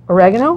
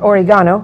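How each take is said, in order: First: It is said with an American pronunciation. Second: It is said with a European pronunciation.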